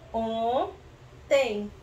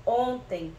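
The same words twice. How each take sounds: First: "Ontem" split slowly, on... tem; syllable by syllable. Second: Said in the usual way. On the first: Shown as a demonstration. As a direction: hold "on", pause, then add "tem" in "Ontem". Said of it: "vamos colocar". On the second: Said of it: "Existe essa palavra?".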